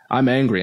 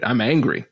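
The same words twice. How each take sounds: First: "I'm angry" repeated with more force; a bit louder, hitting "angry" harder; retold angry insistence. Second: Firm, mildly heated "I'm angry"; a touch of heat in "I'm angry"; retold angry claim. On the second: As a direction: state the anger plainly but firmly. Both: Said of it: "she glared at me and said".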